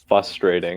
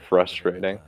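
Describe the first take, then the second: First: The word is said without the r after f. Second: The word is said with the r after f. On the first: The speaker calls it wrong. "people say uh, frustrating" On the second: The speaker calls it right. "instead of frustrating"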